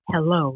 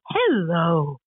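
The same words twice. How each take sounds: First: The greeting is said with fairly level pitch. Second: The greeting swoops up and down in pitch. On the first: The speaker calls it wrong. "It isn't" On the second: The speaker calls it right. "it's very sing-song. It's very tonal"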